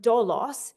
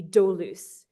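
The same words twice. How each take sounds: First: "doulos" said as dolos, with an o in the first syllable; trick word dolos. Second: "doulos" pronounced as the word for slave, not as dolos. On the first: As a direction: say "doulos" slowly as DOH-loss, the word for trick. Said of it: "if it is actually the word". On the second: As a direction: say "doulos" as the Greek word for slave, with the ou spelling sounded. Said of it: "often translated as slave, which should be doulos". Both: Shown as a demonstration.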